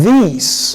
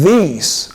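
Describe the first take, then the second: First: The first consonant is a soft th. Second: The same.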